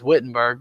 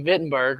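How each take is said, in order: First: Said in the usual way. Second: Wittenberg with the W said as V; German pronunciation. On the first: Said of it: "what we would say is". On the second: Shown as a demonstration. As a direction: say Wittenberg the German way, starting "Vit". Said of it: "we pronounce our W's a little different".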